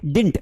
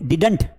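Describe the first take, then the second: First: The middle d sound is dropped. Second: The middle d sound is clearly pronounced. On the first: The speaker calls it right. "इसे डिंट पढ़ा जाता है" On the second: The speaker calls it wrong. "Don't pronounce it डिडंट"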